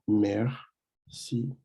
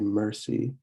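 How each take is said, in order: First: The R is a French throaty R. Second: The R is an English-style R. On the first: The speaker calls it right. "you're going to want to say merci" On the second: The speaker calls it wrong. "You're not going to say merci like you would in English"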